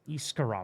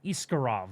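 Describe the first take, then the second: First: The name is said with an R sound. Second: The name is said with an R sound.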